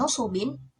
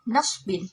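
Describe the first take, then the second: First: The word begins nu with a second u vowel. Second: The word begins na with no second vowel. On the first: "kata nusubin" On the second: "dibaca menjadi nasbin"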